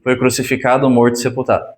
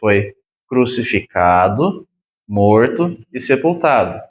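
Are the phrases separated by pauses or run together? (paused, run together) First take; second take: run together; paused. First: The phrases run together without any pauses. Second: Each phrase is separated by a clear pause. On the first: A man already dead and buried was crucified. The speaker calls it wrong. "Tem gente que junta tudo" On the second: Three separate events happened one after another. The speaker calls it right. "fala pausadamente"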